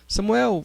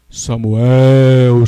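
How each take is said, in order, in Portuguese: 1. O nome é chamado com voz normal de conversa. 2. O nome é chamado com voz forte. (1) "ele usava uma tonalidade de voz normal" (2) "Deus não falou com Samuel de uma maneira assim"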